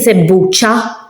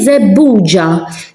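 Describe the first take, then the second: First: The last consonant is a voiceless 'ch' sound. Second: The last consonant is a voiced 'j' sound. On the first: The speaker calls it wrong. "I'm not saying zebbucha" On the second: The speaker calls it right. "I'm saying zebbuja. So the zebbuj, it's with a G, not with a chi"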